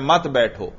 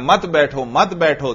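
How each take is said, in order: First: Said in the usual way. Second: "मत बैठो, मत बैठो" said twice back to back for added force; emphatic repetition. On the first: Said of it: "देखो किसमें जोर ज्यादा". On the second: Shown as a demonstration. Teacher showing how repetition adds force, "मत बैठो, मत बैठो" emphatically doubled. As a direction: press "मत बैठो, मत बैठो" by doubling it, each ending falling. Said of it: "दो मर्तबा में जो कहे उसमें जोर ज्यादा".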